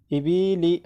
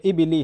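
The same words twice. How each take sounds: First: इबिली with a long drawn middle "ee"; wrongly lengthened vowels. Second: Said in the usual way. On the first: Shown as a demonstration. Teacher showing how not to read harakat, इबिली stretched. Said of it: "ऐसा पढ़ोगे तो गलत हो जाएगा". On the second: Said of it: "इबिली ऐसा पढ़ोगे तो गलत हो जाएगा".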